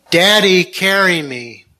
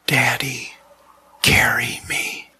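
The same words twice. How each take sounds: First: Almost shouting. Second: Put-on hushed, halting child's whisper; whispered plea. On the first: Burned boy repeats the plea to his father, almost shouting. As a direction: call out the plea, just short of a shout. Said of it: "Almost shouting". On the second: Injured son to his father from beneath the bandages, whispered. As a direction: whisper it slowly, weakly from under bandages. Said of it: "he whispered". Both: A narrator's reading.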